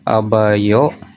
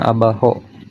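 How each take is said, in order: First: The middle consonant is not an h sound. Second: The middle consonant is an h sound.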